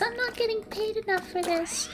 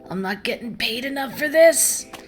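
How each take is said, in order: First: It is said in a put-on character voice. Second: It is said in his normal voice.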